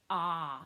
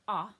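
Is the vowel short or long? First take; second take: long; short. First: The vowel is longer. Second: The vowel is shorter. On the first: "It's a longer vowel sound" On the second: "it sounds like the O"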